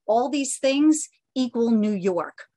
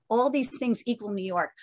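First: ALL THESE THINGS slow, louder, weighty; emphatic slogan. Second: Said in the usual way. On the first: Real, not acted. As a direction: draw out "All these things equal New York", punching it loudly. Reads magazine cover slogan with emphasis.

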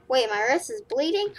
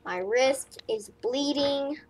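First: Bleeding rising in surprise; surprised question. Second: Said in the usual way. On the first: Real, not acted. Gamer noticing his own wrist is bleeding, surprised rising question. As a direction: suddenly realise it.

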